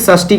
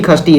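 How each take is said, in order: First: The word begins with a 'sh' sound. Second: The word begins with a 'kh' sound. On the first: "षष्ठी बोलिए" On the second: "हमारे बिहार के बोलचाल के भाषा में इसको खष्टी खष्टी कहते हैं"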